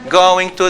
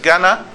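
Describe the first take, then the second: First: Both words are said fully and separately. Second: The words are reduced and blended into one. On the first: This is the formal form used in writing. "this is formal" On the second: This is the informal spoken form. "they say what?"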